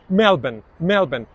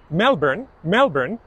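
First: It is said in a British or Australian accent. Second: It is said in an American accent. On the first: "British and Australian"

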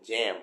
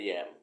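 First: The word begins with a j sound. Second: The word begins with a y sound. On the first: The speaker calls it right. "ต้องเป็นแจม" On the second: The speaker calls it wrong. "ไม่ใช่ แยม, จะสื่อความหมายผิดทันที"

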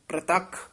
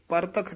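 First: The p and r are joined as a cluster. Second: A vowel separates the p and r. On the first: The speaker calls it right. "ਪ੍ਰਤੱਖ ਉਚਾਰਨ ਕਰਨਾ" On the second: The speaker calls it wrong. "ਪਰਤੱਖ ਨਹੀਂ ਕਹਿਣਾ"

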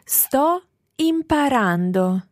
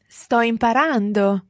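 First: It is said slowly. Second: It is said at normal speed.

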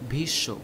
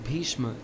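First: The word ends with a y sound. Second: The word ends with an m sound. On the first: "This is pronounced as Bhishyo" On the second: "Bhishma in Hindi"

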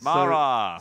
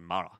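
First: The vowel in the name is drawn out. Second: The vowel in the name is short. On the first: The speaker calls it right. "he's got two A's, so you need to call him Mara!" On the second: The speaker calls it wrong. "You can't just say Mara"

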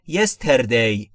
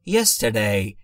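First: It has a clear Persian-style r sound. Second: The r sound is so soft it is barely heard. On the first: The speaker calls it wrong. "اگر بخواید ایرانیزه تلفظش بکنید" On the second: The speaker calls it right. "آرش اصلا شنیده شاید نشه"

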